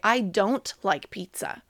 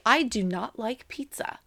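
First: The words 'do not' are joined into 'don't'. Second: The words 'do not' are said in full as two words. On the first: It sounds like what one would really say to a friend. The speaker calls it right. "I would more than likely say" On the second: It sounds formal, not like talking to a friend. The speaker calls it wrong. "So I wouldn't say"

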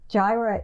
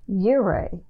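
First: The word begins with a J sound. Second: The word begins with a Y sound. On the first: This is the usual English form. "in Hebrew, Jireh is pronounced Yireh" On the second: This is the original Hebrew form. "in Hebrew, Jireh is pronounced Yireh"

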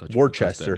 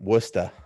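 First: It is said in a general, outsider accent. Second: It is said in a local Boston accent.

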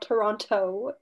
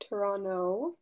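First: The second t sound is clearly pronounced. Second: The second t sound is dropped entirely. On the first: The speaker calls it wrong. "Not Toronto" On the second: The speaker calls it right. "There's that T does not exist in this"

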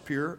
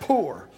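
First: The word sounds like 'pure', with a y-glide. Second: The word sounds like 'poor', with no y-glide. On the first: The speaker calls it wrong. "I thought it was pure" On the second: The speaker calls it right. "That's poor"

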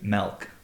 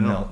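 First: The word is said in an upstate New York accent. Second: The word is said in a general accent.

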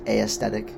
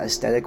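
First: The word begins with an 'ay-ee' sound. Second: The word begins with an 'es' sound. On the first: The speaker calls it wrong. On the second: The speaker calls it right.

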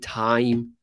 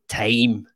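First: It is said in an American accent. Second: It is said in a Scottish accent. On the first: "If an American would pronounce the I differently, they would say time" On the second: "Whereas a Scottish person would say time. The I becomes an A"

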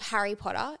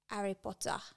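First: The H sound at the start is pronounced. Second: The H sound at the start is dropped. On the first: "instead of Harry Potter" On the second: "you don't say the H's"

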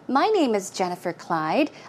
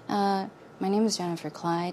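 First: It is spoken loudly and with clear articulation. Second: It is spoken low and indistinctly, mouth half closed. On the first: "if I want to speak clearly and loudly, I can say" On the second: "I am going to mumble, so listen carefully"

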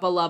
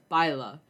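First: The first syllable is a plain 'bah' sound. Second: The first syllable is a gliding 'bye' sound. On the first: The speaker calls it wrong. "But they do, watch out, bala" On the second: The speaker calls it right. "That's not how you pronounce it"

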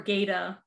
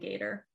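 First: The name is said with the final R dropped. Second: The name is said with the final R sounded.

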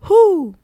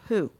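First: The word is said at a high pitch. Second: The word is said at a low pitch. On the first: It refers to the sound an owl makes. "always do it at that pitch" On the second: It asks about a person. "if I just in general say who"

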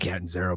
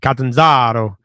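First: It is said with an Americanized pronunciation. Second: It is said with an Italian pronunciation.

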